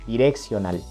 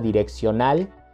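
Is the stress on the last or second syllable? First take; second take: second; last. First: The stress is on the second syllable. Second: The stress is on the last syllable.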